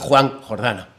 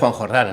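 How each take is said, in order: First: It is said as two separate stressed words. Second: It is run together as one compound word. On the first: It sounds like a person's first name plus surname. The speaker calls it wrong. "no es Juan Jordana" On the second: It is a compound meaning 'spring' plus a name. The speaker calls it right. "es Juan Jordana"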